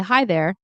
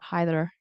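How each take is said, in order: First: The word there is pronounced fully. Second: The word there is reduced and shortened. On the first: The speaker calls it right. "So I would say" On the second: The speaker calls it wrong. "and not"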